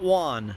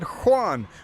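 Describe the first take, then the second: First: The name begins without an H sound. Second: The name begins with an H sound. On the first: The speaker calls it wrong. "not Juan" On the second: The speaker calls it right. "I frickin' said Juan"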